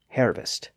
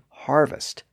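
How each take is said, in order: First: The first vowel sounds like 'air'. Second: The first vowel sounds like 'ar'. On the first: This is the older pronunciation. "previously pronounced hervest" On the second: This is the later pronunciation. "the words that kept the newer R sound"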